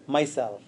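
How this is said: It is said as one single word. The Self is what I am. The speaker calls it right. "But it should be one word"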